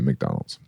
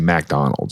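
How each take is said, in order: First: The first syllable is a reduced 'mick' sound. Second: The first syllable is a full 'mac' sound. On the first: The speaker calls it right. "You'd say McDonald's" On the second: The speaker calls it wrong. "you wouldn't say McDonald's"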